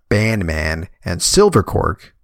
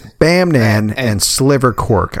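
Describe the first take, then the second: First: The opening sounds are said as ban man. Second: The opening sounds are said as bam nan. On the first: The speaker calls it wrong. "I can't tell you how many times I've pronounced that" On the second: The speaker calls it right. "But it's"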